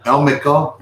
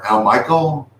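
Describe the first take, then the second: First: "Elmico" said EL-mih-koh; first pronunciation guess. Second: "Elmico" said el-MY-kul; alternative pronunciation guess. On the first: Viewer's name read out to check it, "Elmico" as EL-mih-koh. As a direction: say "Elmico" with a short i and a koh ending. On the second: Asking the viewer about the name, "Elmico" as el-MY-kul. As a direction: say "Elmico" like "el-Michael". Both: Shown as a demonstration. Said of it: "how is that pronounced?".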